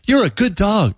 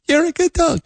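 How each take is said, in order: First: It is said in a lower-pitched voice. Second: It is said in a higher-pitched voice.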